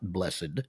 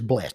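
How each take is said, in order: First: The word is said in an old-fashioned churchy way. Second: The word is said in an ordinary everyday way. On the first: The speaker calls it wrong. "as the old guys at church do when they get up and read" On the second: The speaker calls it right. "it is blessed"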